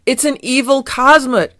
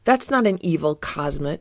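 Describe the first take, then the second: First: High, loud cry of alarm; terrified cry. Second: Said in the usual way. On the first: Acted. Fieldgar spots Odie bounding from the house, terrified cry. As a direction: cry it out in horror. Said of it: "gasped in terror".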